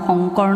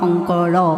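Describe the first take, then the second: First: The word ends abruptly on the final consonant. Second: The word ends with an added final vowel. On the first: The speaker calls it wrong. "খৰা মৰাকৈ গাই থৈছে" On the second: The speaker calls it right. "স্বৰান্তভাৱে উচ্চাৰিত হয়"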